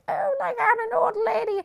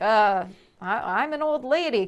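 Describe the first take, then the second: First: It is played fully committed, in character. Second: It is played ironically, detached from the character.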